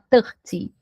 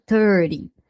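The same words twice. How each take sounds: First: It is said with a British accent. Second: It is said with an American accent. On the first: "Pode, no inglês britânico" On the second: "O americano, que é mais usado"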